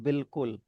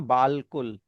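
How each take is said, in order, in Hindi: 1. पहला स्वर छोटा 'i' है। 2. पहला स्वर लंबा 'aa' है। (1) "हम इस बालकुल को बोलते हैं बिल्कुल" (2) "तो ये बना बालकुल"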